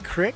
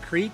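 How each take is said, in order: First: The vowel is short, rhyming with 'stick'. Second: The vowel is long, rhyming with 'seek'. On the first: "Do you guys say crick?" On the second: "Instead of creek"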